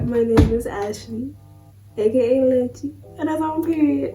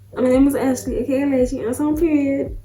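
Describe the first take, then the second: First: It is said with low energy. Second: It is said with high energy.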